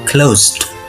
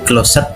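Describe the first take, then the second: First: The word is said as one syllable. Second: The ending is said as an extra syllable. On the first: The speaker calls it right. "tapi closed" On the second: The speaker calls it wrong. "itu bukan closet bacanya"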